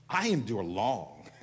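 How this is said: It is said with strong feeling. The speaker is engaged with the words. The speaker calls it right. "when you confess with emotion, even if it's put on emotion to begin with"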